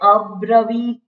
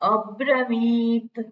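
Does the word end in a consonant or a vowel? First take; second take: vowel; consonant. First: The word ends with a full final vowel. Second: The word ends on a bare final consonant. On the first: The speaker calls it wrong. "અબ્રવીત એમ ના થાય ઉચ્ચારણ" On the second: The speaker calls it right. "ત્રાંસી લીટી છે"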